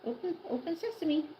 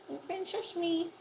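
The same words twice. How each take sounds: First: Said in the usual way. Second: Drawn-out, higher "Open sesame" sung slowly; slow coaxing sing-song. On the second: Acted. Owner coaxing the hen to open her beak, slow higher sing-song.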